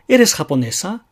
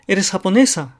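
First: It has the intonation of a genuine question. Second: It has the intonation of a confirming question. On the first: The asker truly does not know the answer. "純粋に尋ねるときには" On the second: The asker expects a yes and checks it. "確認のための質問をする場合"

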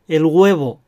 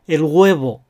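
The two takes are said the same way.

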